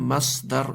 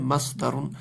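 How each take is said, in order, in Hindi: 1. शब्द साधारण r की आवाज़ पर खत्म होता है। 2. शब्द जोड़ी गई un की आवाज़ पर खत्म होता है। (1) "तो ये बोलेंगे मसदर" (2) "लेकिन होता है मसदरुन"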